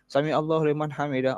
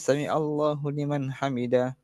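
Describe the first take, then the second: First: It is recited hurriedly without pauses. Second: It is recited calmly with pauses. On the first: The speaker calls it wrong. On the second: The speaker calls it right. "Baca dengan tenang"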